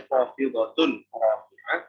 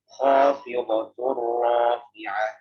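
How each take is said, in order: First: The n sound is clearly pronounced before r. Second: The n sound merges into the following r. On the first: The speaker calls it wrong. "Kalau nggak dibaca khafidhatun rafi'ah" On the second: The speaker calls it right. "Jadi bacanya khafidhatur rafi'ah"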